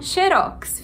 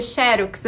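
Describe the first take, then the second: First: "xerox" said xe-ROX, last syllable strongest; stress on last syllable. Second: "xerox" said XE-rox, first syllable strong; stress on first syllable. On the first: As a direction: land hard on the ROX of "xerox". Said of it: "A última sílaba é a mais forte". ("xerox" como oxítona, xe-ROX) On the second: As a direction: lean on the XE of "xerox". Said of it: "colocar o acento na primeira sílaba". ("xerox" com acento na primeira sílaba) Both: Shown as a demonstration.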